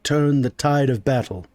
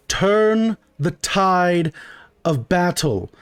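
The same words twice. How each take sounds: First: Said in the usual way. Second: "Turn the tide" drawn out word by word; slow, pointed correction. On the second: Acted. Customer correcting the shopkeeper, "Turn the tide" slow and emphatic. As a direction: spell out "Turn the tide ... of battle" very slowly with a pause.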